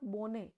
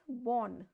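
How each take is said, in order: First: The word ends with an audible final vowel. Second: The word ends without a final vowel sound. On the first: The speaker calls it wrong. "not bonne" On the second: The speaker calls it right. "pronounced as bon"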